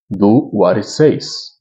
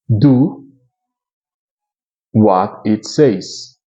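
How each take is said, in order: First: It is read at a normal speed. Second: It is read slowly and deliberately. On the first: "Eu vou fazer a leitura desse texto" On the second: "Vamos mais devagar agora para podermos praticar?"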